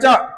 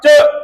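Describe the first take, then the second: First: The word is said with an 'o' vowel. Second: The word is said with a 'u' vowel. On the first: The speaker calls it wrong. "bukan cok" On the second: The speaker calls it right.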